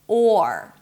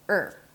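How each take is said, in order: First: It has a long open O vowel. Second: It has a short reduced er vowel. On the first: "You have a nice long open O sound" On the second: "when the or is reduced, it turns into er"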